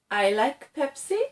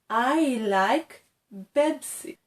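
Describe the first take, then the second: First: The drink name uses P sounds. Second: The drink name uses B sounds. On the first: The speaker calls it right. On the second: The speaker calls it wrong.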